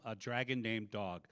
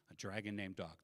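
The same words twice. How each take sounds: First: Said in the usual way. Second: Softer, musing "A dragon named dog."; quiet repeat. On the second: Pretend. Comic quietly savouring the phrase a dragon named dog. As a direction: savour the phrase again, under the breath.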